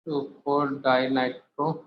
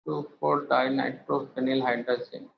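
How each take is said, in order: First: Slow spelled out. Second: Said in the usual way. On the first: Shown as a demonstration.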